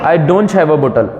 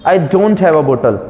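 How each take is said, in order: No difference in how they are said.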